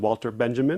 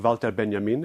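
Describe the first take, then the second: First: The name is pronounced the English way. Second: The name is pronounced the German way.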